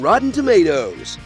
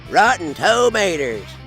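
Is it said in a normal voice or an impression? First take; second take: normal voice; impression. First: It is said in the speaker's normal voice. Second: It is said in an impression of Mater.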